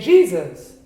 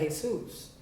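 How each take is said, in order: First: The name is pronounced the English way. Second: The name is pronounced the Spanish way. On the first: "We say Jesus" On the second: "you go to a Mexican family ... you're going to pronounce that Jesus"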